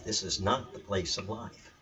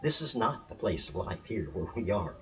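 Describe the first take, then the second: First: Slow, deliberate, leaning on "not"; emphatic. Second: Said in the usual way. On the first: Shown as a demonstration. Teacher hammering home the point to viewers, slow and emphatic. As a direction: press "not" slowly, word by word. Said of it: "I can't emphasize it enough". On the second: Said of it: "I want to emphasize that again".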